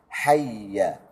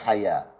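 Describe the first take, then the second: First: The doubled y sound is held briefly. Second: The doubled y sound is rushed quickly. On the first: The speaker calls it right. "ditahankan sedikit" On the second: The speaker calls it wrong. "jangan dibaca hayya. Jangan dilajukan"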